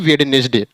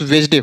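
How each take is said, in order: First: The d before n is pronounced. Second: The d before n is silent. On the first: The speaker calls it wrong. "न कि वेडनेसडे" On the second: The speaker calls it right. "सही pronounce वेजडे होगा"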